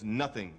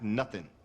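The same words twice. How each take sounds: First: The ending is said fully with a final g. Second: The ending is said without a final g. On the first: The speaker calls it right. "The word is nothing" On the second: The speaker calls it wrong. "not nothing"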